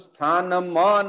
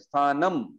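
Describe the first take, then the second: First: The word ends with an added vowel sound. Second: The word ends on a bare consonant sound. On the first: The speaker calls it wrong. "नहीं बोल सकते" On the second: The speaker calls it right. "बोलना पड़ेगा"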